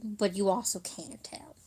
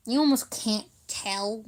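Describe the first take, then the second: First: Hushed, breathy punchline; whispered aside. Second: Said in the usual way. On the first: Shown as a demonstration. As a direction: whisper it as a joke. Joke repeated, second take whispered.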